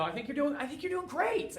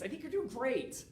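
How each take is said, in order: First: High, softer, rising mock-sweet praise; mock-sweet "I think you're doing great" with a high rising lilt; patronizing relative. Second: Softer mock-sweet praise falling at the end; sugary "doing great" that settles down; patronizing relative. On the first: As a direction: coo it like a condescending aunt. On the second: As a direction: wrap up the condescending compliment. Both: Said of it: "people are like".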